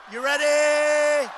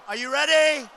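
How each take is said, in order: First: Slow, stretched call out to the crowd; hyping up the rally crowd; drawn-out crowd call. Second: Said in the usual way. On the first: Real, not acted. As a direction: stretch "ready" like a ring announcer. Rally host calling to crowd.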